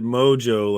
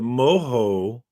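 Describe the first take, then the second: First: The middle consonant is a J sound. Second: The middle consonant is an H sound. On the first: "Or is it Mojo like I say it?" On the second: "is it Moho for mojito?"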